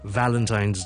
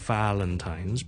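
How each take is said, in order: First: The word begins with a V sound. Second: The word begins with a W sound. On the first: The speaker calls it right. "it's Valentine's with a V sound" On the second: The speaker calls it wrong. "it's not W"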